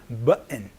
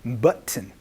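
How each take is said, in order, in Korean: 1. "button"의 가운데 t는 n 소리로 삼켜집니다. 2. "button"의 가운데 t는 분명하게 터뜨려 발음합니다. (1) "은소리로 바뀔 수도 있으니까" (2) "이렇게 얘기를 하거나"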